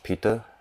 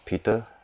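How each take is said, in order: First: It is said in a Malaysian English accent. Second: It is said in a Malaysian English accent.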